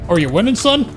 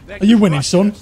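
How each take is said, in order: First: It is said in a Texan accent. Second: It is said in a Yorkshire accent. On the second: "in my head it's like a Yorkshire accent almost"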